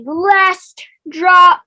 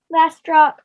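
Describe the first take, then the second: First: Slow, loud drawn-out announcement; announcer. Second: Said in the usual way. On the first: Acted. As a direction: boom it out like a host. Announcer reveal, then plain repeat.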